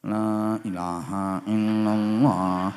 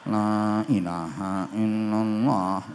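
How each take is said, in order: The two takes are said the same way.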